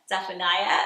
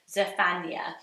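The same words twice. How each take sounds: First: The name ends without a 'naya' sound. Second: The name ends with a 'naya' sound. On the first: The speaker calls it wrong. "tempting, as I sometimes do, to go Zephaniah" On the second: The speaker calls it right. "but it's Zephaniah. I prefer it Naya at the end"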